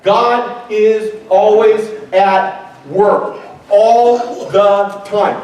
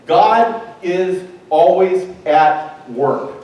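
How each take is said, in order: First: Stretched out, leaning on all; slow insistent repeat; slow emphatic. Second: God is always at work, each word slow and weighted; solemn slow declaration; slow emphatic. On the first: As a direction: draw out all the time. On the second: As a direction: spell it out slowly so it sticks. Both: Shown as a demonstration. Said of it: "I want you to remember this".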